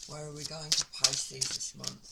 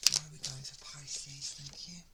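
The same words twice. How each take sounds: First: Said in the usual way. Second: Hushed whisper, breath only; soft secret whisper to the universe. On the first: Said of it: "asks the universe aloud". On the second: Real, not acted. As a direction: whisper it as if to the cards. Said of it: "repeats question to the universe".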